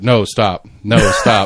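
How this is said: It is read out flatly, like a transcript.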